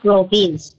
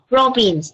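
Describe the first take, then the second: First: The stress is on the second syllable. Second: The stress is on the first syllable. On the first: The speaker calls it wrong. "not the second syllable" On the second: The speaker calls it right. "you have to say province, the first syllable"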